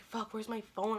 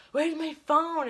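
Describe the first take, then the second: First: Said in the usual way. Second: Higher, louder retold panic; mock-frantic, raised voice; frantic searching.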